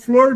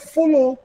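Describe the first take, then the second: First: It is one syllable ending in r. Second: It is two syllables with no final r.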